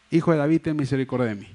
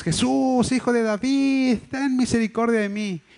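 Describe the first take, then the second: First: Said in the usual way. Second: High, drawn-out plea without full volume; imitated shouting. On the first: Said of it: "no lo dijo una sola vez". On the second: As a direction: imitate a blind man calling out for mercy. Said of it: "lo que se pone a gritar es". (grito imitado, agudo y alargado)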